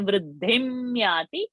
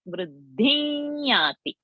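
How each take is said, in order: First: The nasal before yati is a clear m. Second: The nasal before yati is a nasalized y. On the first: The speaker calls it wrong. "We don't say vruddhimyati" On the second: The speaker calls it right. "we say vruddhinyati"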